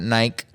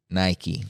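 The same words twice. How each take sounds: First: "Nike" with a silent e; wrong Nike pronunciation. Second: "Nike" in two syllables, ending in ee; correct Nike pronunciation. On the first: Correcting listeners on the brand name, "Nike" mispronounced without the final ee. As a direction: say "Nike" as one syllable, rhyming with bike. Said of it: "sub-label of Nike". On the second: Teaching listeners the brand name, "Nike" said clearly as NY-kee. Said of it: "Not Nike". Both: Shown as a demonstration.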